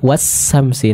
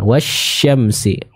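First: The middle consonant sounds like a plain s. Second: The middle consonant sounds like a breathy sh. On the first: The speaker calls it wrong. "masih terdengar huruf sin dua-duanya" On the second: The speaker calls it right. "sempurnakan wasyamsi"

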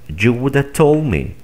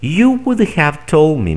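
First: The word have is reduced to a vowel. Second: The word have is pronounced in full.

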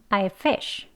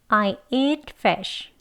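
First: The sentence is spoken at a faster pace. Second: The sentence is spoken at a slower pace. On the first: "조금 빨리요" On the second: "같이 해볼게요"

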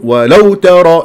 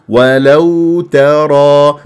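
First: The phrase is said stiffly and abruptly. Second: The phrase flows softly and smoothly. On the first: The speaker calls it wrong. "مو" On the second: The speaker calls it right. "شوف ليونة سلاسة"

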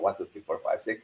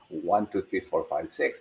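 First: The counting is at a very fast pace. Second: The counting is at a faster pace.

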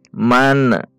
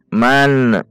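First: The final n ends with an echoing bounce. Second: The same.

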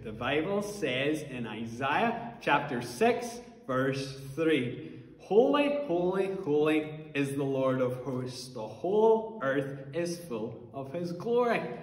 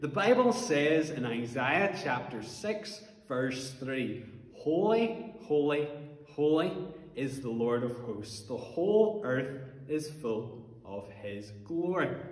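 First: It is said very loudly. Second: It is said at normal loudness.

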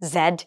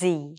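First: The letter name is said as zed. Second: The letter name is said as zee. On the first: The speaker calls it wrong. "আমরা কতজন এটাকে জেড জেড জেড এসব বলে থাকি।" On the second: The speaker calls it right. "According to the native speakers, it's জি"

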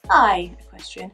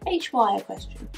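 First: The name is said as one word, high. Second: The name is said as two letters, H Y. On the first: "Do you think it's HY or high?" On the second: "I always say HY"

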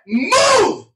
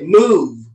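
First: It is said very powerfully and loudly. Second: It is said somewhat firmly.

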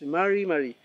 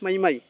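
First: The R sound is clearly pronounced in the word. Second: The R sound is dropped from the word. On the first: The speaker calls it right. "Es mari, mari" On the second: The speaker calls it wrong. "No es mai, mai"

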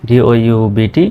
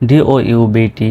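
The two takes are said the same way.

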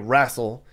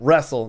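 First: It is said in the South Dakota pronunciation. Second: It is said in the general pronunciation. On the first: "they wrestle" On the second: "They don't wrestle"

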